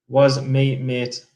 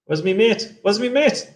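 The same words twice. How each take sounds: First: Said in the usual way. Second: Pitched up higher each time, rising. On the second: Shown as a demonstration. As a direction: climb higher with each take.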